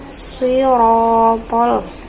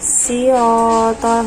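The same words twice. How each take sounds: First: The first consonant is a thick, heavy s. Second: The first consonant is a thin, light s. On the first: The speaker calls it right. "tapi sirotol ya seperti itu" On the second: The speaker calls it wrong. "bukan sirotol. Nah itu menjadi huruf sin"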